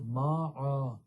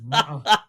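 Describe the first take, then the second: First: The vowel is drawn out long. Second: The vowel is kept short. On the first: The speaker calls it wrong. "this individual is reading ma'a" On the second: The speaker calls it right. "but the word is ma'a. It is not elongated"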